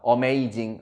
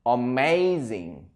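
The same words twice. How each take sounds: First: Amazing with a Korean-style "o-mei-jing" start; wrong pronunciation. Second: Amazing said slowly as "a-MEI-zing"; correct pronunciation. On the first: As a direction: say Amazing as "omeijing", the mistaken way. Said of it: "요런 발음들 여러분 잘 잡으셔야 됩니다". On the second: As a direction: say Amazing carefully, "ameizing", stress on MEI. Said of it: "이렇게 읽어야 돼요". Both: Shown as a demonstration.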